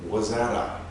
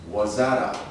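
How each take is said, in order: The two takes are said the same way.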